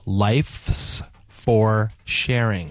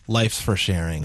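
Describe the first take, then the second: First: It is said slowly, each word carefully pronounced. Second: It is said at normal speed, words run together. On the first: "I said it slowly and enunciatorily" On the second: "the more easily understood way"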